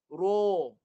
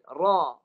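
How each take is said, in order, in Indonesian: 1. Vokal ini diucapkan dengan bibir membulat dan dimonyongkan. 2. Vokal ini diucapkan dengan mulut dibuka lebar. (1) "ni guna muncung. Guna muncung" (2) "mulut dilebarkan untuk dapat bunyi yang sengit sikit"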